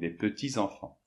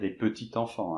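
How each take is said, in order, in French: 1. Le s de petits se lie en z à enfants. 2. Le s de petits reste muet devant enfants. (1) "puisqu'il y a un S à petit, donc des petits enfants" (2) "on va pas dire des petits enfants"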